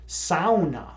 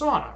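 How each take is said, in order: First: Sauna is said the Finnish way. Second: Sauna is said the common American way. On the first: The speaker calls it right. "the sauna originated in Finland, and it's actually pronounced sauna" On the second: The speaker calls it wrong. "That's how people say it. That's actually not the correct pronunciation"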